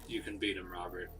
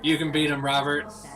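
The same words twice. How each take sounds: First: It is said at a quieter volume. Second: It is said at a louder volume.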